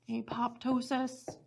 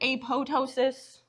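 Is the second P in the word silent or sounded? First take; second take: sounded; silent. First: The second P sound is pronounced. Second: The second P sound is left silent.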